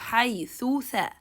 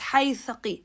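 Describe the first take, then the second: First: Each th sound gets its own vowel and time. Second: The two th sounds run together as one. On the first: The speaker calls it right. "give the ضمة ثو time and go to the ثاء and give it any time as well" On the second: The speaker calls it wrong. "Don't say them as"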